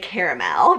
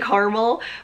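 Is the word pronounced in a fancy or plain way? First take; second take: fancy; plain. First: The word is said in a fancier-sounding pronunciation. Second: The word is said in a plain, everyday pronunciation. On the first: This makes the product sound fancy and amazing. "it makes it sound so fancy and amazing" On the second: This is the usual, everyday way to say it. "I normally say caramel"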